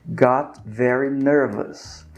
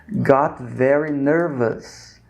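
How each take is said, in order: No difference in how they are said.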